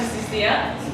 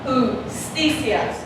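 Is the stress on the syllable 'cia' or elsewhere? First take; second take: on cia; elsewhere. First: The stress falls on the syllable cia. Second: The stress does not fall on cia. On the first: The speaker calls it wrong. "If it was here, how would you pronounce that word?" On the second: The speaker calls it right. "It's pronounced justicia"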